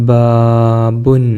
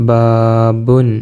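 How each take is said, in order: No difference in how they are said.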